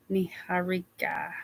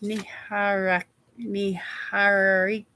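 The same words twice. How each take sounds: First: Niharika whispered under the breath, practising; whispered retry. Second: Niharika sounded out slowly, syllable by syllable. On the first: Host quietly retrying a viewer's name in a whisper. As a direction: breathe out Niharika to yourself, trying again. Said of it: "I still don't think I'm getting it". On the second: Host carefully sounding out a viewer's hard name slowly. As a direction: say Niharika slow so you get it right. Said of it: "I have to say it slow". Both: Shown as a demonstration.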